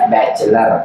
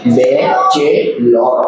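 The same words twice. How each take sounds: First: "बैचलर" said short, bach-lar; correct pronunciation. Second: "बैचेलर" said slowly as spelled, bai-che-ler; spelling pronunciation. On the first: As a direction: clip "बैचलर" to two syllables. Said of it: "लेकिन पढ़ेंगे". ("बैचलर" छोटा करके बोलें) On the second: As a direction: read "बैचेलर" letter by letter, stretched. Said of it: "ऐसे तो हम पढ़ेंगे इसको बैचेलर". ("बैचेलर" को लिखे जैसा धीरे धीरे पढ़ते हुए) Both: Shown as a demonstration.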